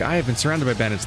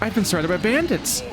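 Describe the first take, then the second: First: It is said in a slow, reflective, pensive tone. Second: It is said in an urgent, alarmed, present tone. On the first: The speaker is reflecting on a past upbringing. The speaker calls it wrong. "talking pensively about her past" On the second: The danger is happening right now. The speaker calls it right. "She's literally currently surrounded by bandits"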